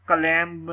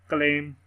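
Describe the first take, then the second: First: "क्लेम" with a b added, "klemb"; b wrongly sounded. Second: "क्लेम" ending cleanly on m; silent final b. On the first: Teacher showing the mistaken reading, final b sounded. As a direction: release a b after the m of "क्लेम". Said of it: "नहीं पढ़ना". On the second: Teacher correcting the reading, b left silent. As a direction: say "क्लेम" without any b. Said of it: "बी की sound नहीं आएगी". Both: Shown as a demonstration.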